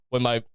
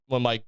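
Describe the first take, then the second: No difference in how they are said.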